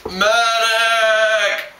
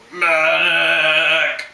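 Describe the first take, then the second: First: High, loud call for a medic; man down shout. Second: Man down shout. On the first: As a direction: scream for help after being hit. Wounded soldier calling out. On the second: Wounded soldier calling out again. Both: Acted.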